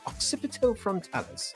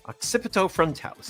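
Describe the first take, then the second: First: It is said in a put-on British accent. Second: It is said in the speaker's ordinary accent.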